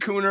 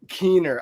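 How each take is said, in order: First: The name's vowel sounds like oo. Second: The name's vowel sounds like ee. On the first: The speaker calls it wrong. "everybody says Cooner" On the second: The speaker calls it right. "the last name is Keener though"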